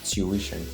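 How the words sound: The first syllable sounds like 'tyoo', as in stew. This is the British pronunciation. "the British will call it tuition"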